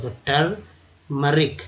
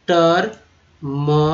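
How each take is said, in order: First: टर्मरिक said slowly once more; slow recap. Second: टर्मरिक stretched, "tur-mur-ik"; slow demo. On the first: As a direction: restate टर्मरिक clearly. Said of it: "उच्चारण किया गया". (टर्मरिक फिर धीरे) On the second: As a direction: model टर्मरिक slowly. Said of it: "यू अ के रूप में उच्चारण किया गया". (टर्मरिक धीरे बोलें) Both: Shown as a demonstration.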